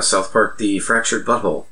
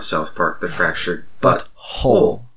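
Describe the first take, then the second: First: It is said without a marked pause after 'South Park'. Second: It is said with a clear pause after 'South Park'.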